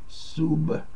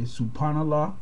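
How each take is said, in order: First: The word is said without a P sound. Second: The word is said with a P sound.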